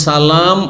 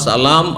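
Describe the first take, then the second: Both takes have the same delivery.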